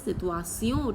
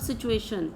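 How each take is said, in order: First: The ending is said as 'see-on'. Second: The ending is not said as 'see-on'. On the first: The speaker calls it right. "It is situation. T I O N is E O" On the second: The speaker calls it wrong. "It is not situation"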